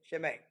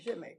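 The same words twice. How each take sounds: First: It is said in a curt, dismissive tone. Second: It is said in a warm, friendly tone. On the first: The speaker is refusing and brushing the person off. "ain't happening. So it depends on the tone" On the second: The speaker is offering help. "come on, let me help you out a second"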